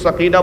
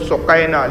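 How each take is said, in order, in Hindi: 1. नाम 'sa' से शुरू होता है, और k के बाद लंबा 'ee' आता है। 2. नाम 'su' से शुरू होता है, और k के बाद 'ai' आता है। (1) "इसलिए मुझे भी सकीना बोलना पड़ रहा है" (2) "अरबी का अगर उसका तलफ़ुज़ देखें, मखारिज देखें तो वह सुकैना"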